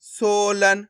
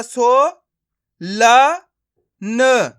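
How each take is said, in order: First: सोलन joined as one word; blended word. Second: सो, ला, न each sounded alone; long सो, rising ला, separate न; syllable by syllable. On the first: Teacher showing learners the joined result, blended word. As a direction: stretch सो, then run into लन. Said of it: "तो मिलके बन जाएगा". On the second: Teacher modelling for learners to practise, syllable by syllable. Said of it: "मैं किस तरीके से इनका उच्चारण कर रहा हूं". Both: Shown as a demonstration.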